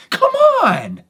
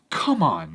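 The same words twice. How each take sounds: First: Very high, loud come on; loud fed-up come on; exasperated plea. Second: Said in the usual way. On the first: Retold or imitated. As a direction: throw up your hands and beg him. Last straw, urging the victim.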